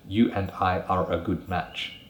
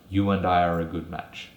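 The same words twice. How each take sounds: First: Each word is said separately, without linking. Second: The words run together with linked sounds. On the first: The speaker calls it wrong. "It's not very smooth" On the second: The speaker calls it right. "when we add these extra sounds and link consonants with vowels"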